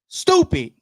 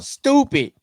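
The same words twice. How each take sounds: First: Squeaky scornful "Stupid" up high; exasperated high exclamation. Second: Exasperated exclamation. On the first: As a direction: toss off the word in disgust. Mock complaint about private profiles. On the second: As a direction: repeat the scoff, falling. Repeats the complaint. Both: Real, not acted.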